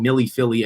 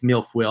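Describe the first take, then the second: First: The name sounds like four syllables, Millie Philly. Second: The name sounds like two syllables, Mil-foil. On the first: This is how other people say the name. "I know you guys call it Millie Philly" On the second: This is the speaker's own guess at the name. "I think it's Milfoil"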